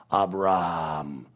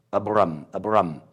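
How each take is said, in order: First: ABRAM with the last syllable drawn out, low; lengthened ending. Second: ABRAM ending in a short RUM; short last syllable on Abram; Abram without H. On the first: Showing the added H, drawn-out Abraham. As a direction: stretch Abram into a long breathed RAAHM. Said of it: "pretending that the R is a little longer". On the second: Contrasting the name before the H, short ending. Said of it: "the last two letters is rum". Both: Shown as a demonstration.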